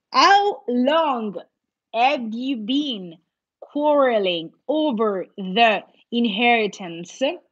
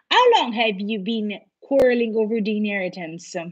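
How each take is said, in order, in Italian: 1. La frase viene letta a un ritmo più lento. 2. La frase viene letta a un ritmo più veloce.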